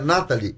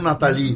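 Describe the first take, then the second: First: The stress is not on the 'li' syllable. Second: The stress is on the 'li' syllable. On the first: The speaker calls it right. "é Nathalie" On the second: The speaker calls it wrong. "Eu coloquei o acento no I"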